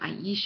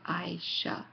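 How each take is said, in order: First: The name has three syllables with a stressed E. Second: The name has two syllables without a stressed E. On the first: The speaker calls it wrong. "as I was saying it, or at least there's not an accent with a strong E" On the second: The speaker calls it right. "sounds uh, more as Aisha"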